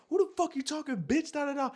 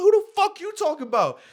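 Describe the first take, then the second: First: Very high-pitched mock outrage; imitated angry girl. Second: Very high, loud yelled comeback; retold furious screaming. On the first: Girl cursing him out, imitated high and indignant. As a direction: mimic her cursing in a high voice. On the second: Him cursing back at the girl, re-enacted as a loud yell. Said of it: "I'm screaming at this bitch".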